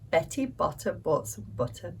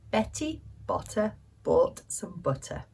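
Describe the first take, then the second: First: It is said quickly, at a fast pace. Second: It is said at a normal, unhurried pace. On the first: "Now can we say it faster?" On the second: "I will say a line, then you repeat it"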